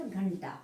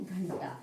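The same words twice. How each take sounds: First: घंटा with a separate full N; misspelt form. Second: घंटा drawn out with a nasal first syllable; correct pronunciation. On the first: Teacher reading out the error, घंटा with a full n. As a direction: say घंटा as "ghan-ta", the N sounded fully. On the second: Teacher giving the right word, घंटा slow and nasal. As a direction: say घंटा slowly, N flowing into T. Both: Shown as a demonstration. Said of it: "सही शब्द क्या है".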